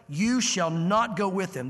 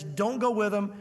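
First: Slow, weighty command; God laying down the law, slowly; emphatic. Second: Said in the usual way. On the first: Retold or imitated. Preacher voicing God forbidding Balaam, slow and emphatic. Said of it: "This is emphatic". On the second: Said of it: "God emphatically says".

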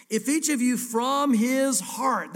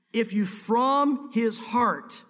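First: "each" and "heart" drawn out slowly, each word weighted; emphatic slow reading. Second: "from" stressed, "heart" held long, very slow; heavier slow emphasis. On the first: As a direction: read it slowly, leaning on every word. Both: Shown as a demonstration. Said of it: "three of the most important words".

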